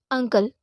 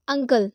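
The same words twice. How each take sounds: First: अंकल again with the short uh vowel, falling; pronounced uncle. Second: अंकल opening on a short uh vowel; pronounced uncle. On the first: (अंकल, शुरू में छोटा अ) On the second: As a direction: start अंकल with a plain short uh. (अंकल को छोटे अ की आवाज़ से शुरू करें) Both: Shown as a demonstration. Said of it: "अ का साउंड आ रहा है".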